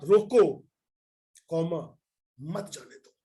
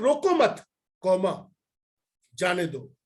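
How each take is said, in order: First: The break comes after 'roko'. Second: The break comes after 'mat'.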